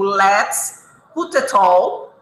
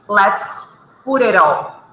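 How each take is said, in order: First: The words are said separately, without linking. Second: The words are linked smoothly into one unit. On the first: "eu poderia dizer assim" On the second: "principalmente no diálogo, no inglês americano, eles vão dizer"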